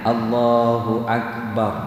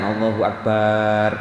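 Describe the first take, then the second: First: The vowel between b and r is short. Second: The vowel between b and r is drawn out. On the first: The speaker calls it right. "Itu ba dan ro itu ndak ada alifnya" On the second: The speaker calls it wrong. "Bukan Allahu Akbar"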